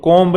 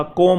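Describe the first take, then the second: First: कॉम्ब with the final b sounded; wrong pronunciation. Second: कॉम with silent b; right pronunciation. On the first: Teacher showing the mistaken कॉम्ब with a final b. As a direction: say कॉम्ब, ending on a b. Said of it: "नहीं होता". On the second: Teacher giving the correct कॉम with no final b. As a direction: say कॉम, no b at the end. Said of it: "होता है". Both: Shown as a demonstration.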